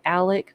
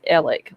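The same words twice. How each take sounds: First: The name is said like 'Alec'. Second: The name is said like 'Ellick'. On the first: This is how many other people say it. "A lot of other people pronounce it Alec with a uh, with a C on the end of it, or like A L E K" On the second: This is how the man himself says it. "He calls himself or pronounces his the Alec name as Alec, like E L L I C K"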